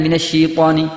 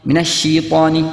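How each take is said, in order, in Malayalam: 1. 'sh' ന് ശേഷമുള്ള സ്വരം 'ee' പോലെ ആണ് കേൾക്കുന്നത്. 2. 'sh' ന് ശേഷമുള്ള സ്വരം 'ee' പോലെ ആണ് കേൾക്കുന്നത്.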